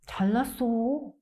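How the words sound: It sounds sincere with a touch of envy. The other person really is impressive. "If it is sincere, it's usually said about someone else with a little bit of envy"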